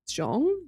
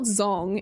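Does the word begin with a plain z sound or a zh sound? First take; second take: zh sound; plain z. First: The word begins with a zh sound. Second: The word begins with a plain z sound. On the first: The speaker calls it right. "It's more like Zhong" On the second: The speaker calls it wrong. "It's not Zong"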